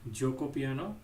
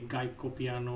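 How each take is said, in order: First: The first word begins with a j sound. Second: The first word begins with a hard g sound. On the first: The speaker calls it right. "it's actually pronounced Joko Piano" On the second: The speaker calls it wrong. "do not pronounce this properly"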